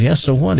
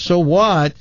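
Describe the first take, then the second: First: Rising, unbothered so what; dismissive question. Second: High so what, falling at the end; indignant echo. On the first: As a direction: shrug it off with a question. Joke's buddy shrugs off the hour. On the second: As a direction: throw the question back, affronted. Late husband throws it back indignantly. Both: Acted.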